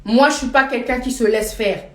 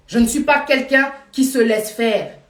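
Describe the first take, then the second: First: Said in the usual way. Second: Slow, weighing each word, stress on pas; slow, firm restatement. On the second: Shown as a demonstration. To viewers in the live, repeating her stand slowly and firmly. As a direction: hammer home "pas" deliberately and slowly.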